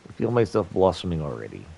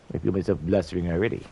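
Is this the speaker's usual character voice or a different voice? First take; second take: usual voice; different voice. First: It is said in the intended character voice. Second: It is said in a mismatched, different voice.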